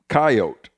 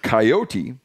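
First: The word is said with two syllables. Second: The word is said with three syllables. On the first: This is how rural people who deal with the animal say it. "pronounced in the two syllables form" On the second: This is how city people who know it from media say it. "the three syllable pronunciation of coyote"

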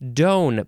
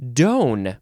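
First: Its vowel matches the vowel in donator. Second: Its vowel matches the vowel in donator.

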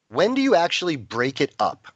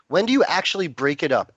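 First: It is said more slowly. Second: It is said fast.

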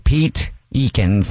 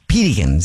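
First: The name is said slowly as two words. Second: The name is said fast, run together.

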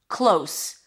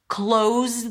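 First: The word ends with a hissing S sound. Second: The word ends with a buzzing Z sound. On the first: It means near. "Long O as in go, and then an S" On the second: It is a verb: to shut something. "Close the door with a Z"

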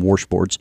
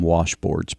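First: It is said in an Oklahoma accent. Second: It is said in a general American accent.

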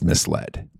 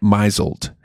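First: It is said as two parts, 'mis-led'. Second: It is said like 'mizzled', rhyming with measle. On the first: The speaker calls it right. "instead of misled" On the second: The speaker calls it wrong. "pronouncing it misled"

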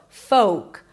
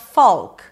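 First: The L sound is silent. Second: The L sound is pronounced. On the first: The speaker calls it right. "There is no L and the O is a long O as in go" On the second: The speaker calls it wrong. "It is not folk"

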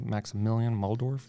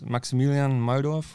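First: The name is pronounced the American way. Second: The name is pronounced the German way. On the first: "or how Americans would say" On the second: "my name is"

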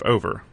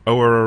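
First: The middle consonant is kept, two syllables. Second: The middle consonant is dropped, one syllable. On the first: "instead of over" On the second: "going o'er a river"

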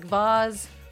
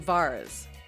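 First: The word is said without an R sound. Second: The word is said with an added R sound.

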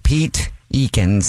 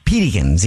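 First: The name is said slowly as two words. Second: The name is said fast, run together.

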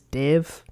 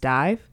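First: The vowel is short, as in 'bit'. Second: The vowel is long, as in 'bite'. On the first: The speaker calls it wrong. "I'd been pronouncing it as Div" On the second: The speaker calls it right. "but it's Dive"

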